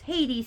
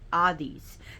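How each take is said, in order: First: It starts with an H and a plain D. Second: It has no H and a short th sound. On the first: This is the local English pronunciation. "who is pronounced Hades here" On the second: This is the Greek pronunciation. "but in Greek is Hades. The H is not pronounced, and the D is like a th"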